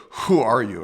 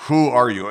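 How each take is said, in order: First: A touch louder, firm police question; police authority. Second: Louder, hard demanding question; stern, firm interrogation; police authority. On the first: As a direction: press him with authority. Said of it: "they're asking with authority". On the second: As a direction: ask it like a police chief pressing. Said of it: "the way police can ask". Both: Retold or imitated.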